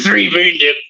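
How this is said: It is said in a put-on monster voice.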